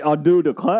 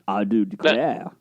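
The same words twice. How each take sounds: First: It is said with a lighter Southern drawl. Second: It is said with a heavier Southern drawl. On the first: "Jason Statham has a Southern accent" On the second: "I got a big, bigger drawl on that one, right?"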